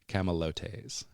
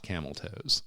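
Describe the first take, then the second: First: It is said as four syllables, 'ca-ma-lo-tes'. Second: It is said like the English 'camel toes'. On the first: The speaker calls it right. "It is ca- camalotes" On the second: The speaker calls it wrong. "not camel toes"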